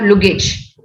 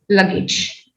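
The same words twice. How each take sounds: First: The first vowel sounds like 'oo'. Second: The first vowel sounds like 'uh'. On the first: The speaker calls it wrong. "it is not luggage" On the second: The speaker calls it right. "It's luggage"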